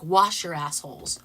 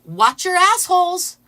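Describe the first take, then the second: First: "Wash" said with an sh instead of tch; "Wash your assholes" with a plain sh in "Wash"; sounds like wash. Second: Loud, slow, high chant; loud, slow, high imitated protester chant; mock yell. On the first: Retold or imitated. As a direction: make "Wash" sound clearly like washing. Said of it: "it sounded like". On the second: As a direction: yell it slowly to the whole street. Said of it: "she says".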